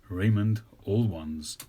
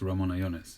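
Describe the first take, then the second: First: The name is reshaped into English-sounding words. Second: The name keeps its original, non-English sounds.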